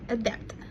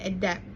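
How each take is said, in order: First: The final consonant is clearly pronounced. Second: The final consonant is left off.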